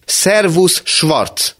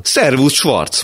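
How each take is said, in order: First: Much higher and louder, almost a shout; even louder greeting. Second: A high, loud, forced hello; loud greeting. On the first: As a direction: shout the greeting while banging the table. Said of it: "mondta még hangosabban". (még hangosabb, kiabáló köszönés) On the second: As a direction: call out across the café too cheerfully. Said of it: "mondta hangosan". (hangos, magas, erőltetett köszönés) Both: Acted.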